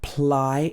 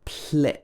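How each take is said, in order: First: The vowel is a long 'eye' sound. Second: The vowel is a short 'i' sound. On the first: The speaker calls it wrong. "This is not pronounced ply" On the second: The speaker calls it right. "It should be pli"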